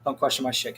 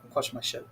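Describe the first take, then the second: First: Said in the usual way. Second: Hissed in a whisper; mock whisper. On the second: Shown as a demonstration. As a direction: drop to a menacing whisper. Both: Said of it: "repeated as whisper".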